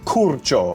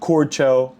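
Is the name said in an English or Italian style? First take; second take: Italian; English. First: The name is said in a strong Italian way. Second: The name is said in a plain English way. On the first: "that feels like how you're supposed to say it in a true Italian way" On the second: "I don't know"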